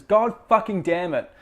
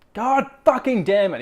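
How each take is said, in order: First: Repeated curse, still raised and loud; a touch less heated mock rage; angry outburst. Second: Loud frustrated curse, pitched up; higher, louder mock rage; angry outburst. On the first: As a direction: quote the swear with mock fury. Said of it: "He says". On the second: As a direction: blurt it like a kid losing it. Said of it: "He's like".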